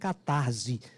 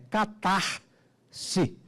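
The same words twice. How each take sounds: First: The s is voiced like a z sound. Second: The s is voiceless like an s sound. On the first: The speaker calls it wrong. "Não existe catarse, pelo amor de Deus" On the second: The speaker calls it right. "É som de S"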